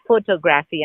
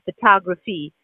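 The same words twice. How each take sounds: First: Photography as foh-toh-GRAF-ee, with full O vowels; Indian English pronunciation. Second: Photography as fuh-TAH-gruh-fee, stress on the second syllable; American pronunciation. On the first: Showing how people in India say it, foh-toh-graf-ee for photography. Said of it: "'cause we say photography". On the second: Learner practising for an English test, American fuh-TAH-gruh-fee for photography. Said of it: "I was trying to say photography". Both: Shown as a demonstration.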